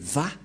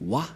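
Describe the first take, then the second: First: The syllable begins with a V sound. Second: The syllable begins with a W sound. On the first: The speaker calls it right. "mais Va pour les Juifs" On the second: The speaker calls it wrong. "les gens disent Wa. Mais en fait, ce n'est pas Wa"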